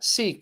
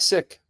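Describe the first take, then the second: First: The word is not said like 'sick'. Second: The word is said like 'sick'.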